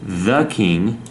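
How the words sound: The word 'the' begins with a soft th sound. "pronunciation the"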